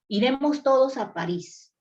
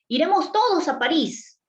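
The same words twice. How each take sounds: First: It is said as a flat, plain statement. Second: It is said as an excited exclamation.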